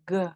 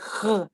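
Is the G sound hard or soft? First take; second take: soft; hard. First: The G sound is soft and light. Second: The G sound is hard and strong. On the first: The speaker calls it right. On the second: The speaker calls it wrong. "you have the tendency to say G"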